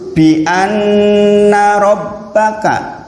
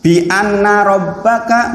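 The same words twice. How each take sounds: First: The double n is held with a nasal hum. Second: The double n is short without a held hum. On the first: The speaker calls it right. "Jenengan tekan" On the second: The speaker calls it wrong. "tanpa ditekan niku keliru"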